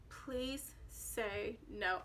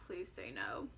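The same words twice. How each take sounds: First: Slow, soft pleading; silent plea. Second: Much lower and softer inner plea; inner thought. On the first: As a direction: beg under your breath, very slow. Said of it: "I didn't tell him that". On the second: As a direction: think it, barely voiced. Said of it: "just kept thinking". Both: Retold or imitated.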